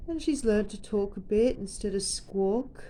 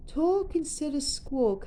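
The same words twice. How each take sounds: First: Said in the usual way. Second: "Talk instead of squawk" sung higher to the bird; sing-song. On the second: Real, not acted.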